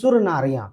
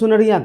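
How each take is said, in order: First: It is split into two parts, sur and nariya. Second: It is said as one joined word, sunariya. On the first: Other people pronounce it this way. "कुछ लोग इसे बोलेंगे सुर नारिया" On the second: This is how the speaker's side pronounces it. "लेकिन हम सुनरिया कहते हैं"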